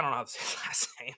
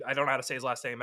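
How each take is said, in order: First: Breathy whisper with a laugh inside; sheepish whispered aside with a laugh. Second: Said in the usual way. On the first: Shown as a demonstration. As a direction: whisper it like a secret. Repeats line, then whispers it.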